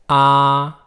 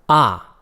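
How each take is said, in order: First: The syllable carries the first tone. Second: The syllable carries the fourth tone.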